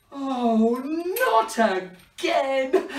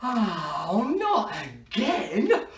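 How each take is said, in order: First: High, very drawn-out mock wail; mock despair. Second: Slow, stretched-out groan of dismay; mock dismay. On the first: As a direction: wail it slowly in hammed-up despair. Wand breaks once more. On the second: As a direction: play up the dismay with a laugh in it. Wand breaks in front of children.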